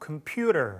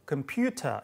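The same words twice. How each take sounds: First: It is said in an American accent. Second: It is said in a British accent. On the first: "computer 하지 않고" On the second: "영국식 발음이었는데"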